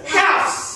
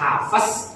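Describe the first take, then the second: First: The name is said as one short syllable. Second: The name has an extra vowel, two syllables. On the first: The speaker calls it right. "tapi sama sekali hafs" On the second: The speaker calls it wrong. "bukan hafaz"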